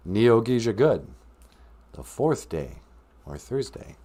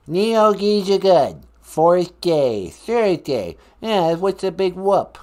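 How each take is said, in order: First: Said in the usual way. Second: Loud, slow mocking Boston echo; Boston accent. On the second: Columbus mockingly repeating host's lesson, put-on Boston accent. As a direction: parrot it loudly in fake Boston. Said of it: "talk with my Boston accent".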